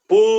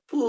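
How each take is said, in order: First: The train sound is said loudly. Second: The train sound is said very softly. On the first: "আবার বলুন এবার উচ্চ স্বরে বলতে" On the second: "এবার বলুন একদম আস্তে বলতে।"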